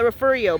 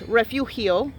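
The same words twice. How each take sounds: First: The name is said with English sounds. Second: The name is said with Spanish sounds. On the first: This is how the locals say it. The speaker calls it wrong. "they call it Refugio" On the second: This is the true heritage pronunciation. The speaker calls it right. "but it's Refugio. They don't want to pronounce it the real way"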